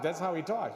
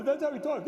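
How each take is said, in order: First: Said in the usual way. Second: Said in a high, loud cartoon moose voice; Bullwinkle. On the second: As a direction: stay in the goofy moose impression, pitched up. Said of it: "this is how Bullwinkle talks".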